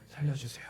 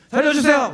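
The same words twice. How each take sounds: First: It is said quietly and with restraint. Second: It is shouted loudly and desperately.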